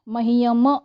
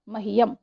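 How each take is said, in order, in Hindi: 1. अंतिम m के बाद स्वर आता है। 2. शब्द रुके हुए m पर अचानक खत्म हो जाता है। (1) "ऐसा नहीं कहा है" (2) "तुरंत म को स्टॉप कर दिया"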